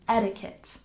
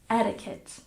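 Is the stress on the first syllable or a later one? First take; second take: first; first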